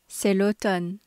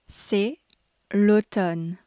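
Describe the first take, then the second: First: It is said at a normal, quicker pace. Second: It is said slowly and clearly. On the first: "twice at normal speed" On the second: "Once slowly so you can grasp the pronunciation clearly"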